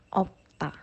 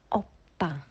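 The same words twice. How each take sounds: Both takes have the same delivery.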